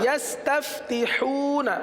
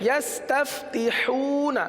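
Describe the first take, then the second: The two takes are said the same way.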